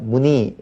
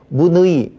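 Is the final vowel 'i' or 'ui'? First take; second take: i; ui. First: The final vowel is a plain i. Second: The final vowel is the diphthong ui. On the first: The speaker calls it right. "그러니까 문의 이렇게 하면 되겠고요" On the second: The speaker calls it wrong. "문의 이렇게 하나요? 안 하죠"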